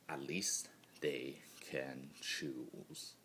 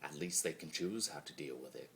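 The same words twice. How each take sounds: First: Slower, softer wistful repeat; slow quiet echo. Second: Said in the usual way. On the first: Acted. Chaos spirit envying others' choice, slow hushed echo.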